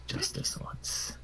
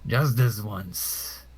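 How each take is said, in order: First: Slow, whispered concession; soft and grudging, barely voiced; under the breath. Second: Very slow, voiced aloud; deliberate, drawn-out warning; firm concession. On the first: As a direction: whisper it to yourself, drawn out. Same words, first under breath. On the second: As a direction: draw out each word for the opponent. Then repeated aloud to opponents.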